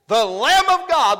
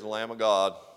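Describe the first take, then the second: First: It is said forcefully, with strong emphasis. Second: It is said in an offhand, low-key way. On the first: It is a bold declaration of belief. The speaker calls it right. "Let's be emphatic about what we believe" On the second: It sounds like an unimportant remark. The speaker calls it wrong. "No, he didn't say it like that, did he?"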